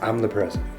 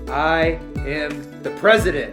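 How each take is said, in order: First: It is said quietly and without force. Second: It is said firmly with strong conviction.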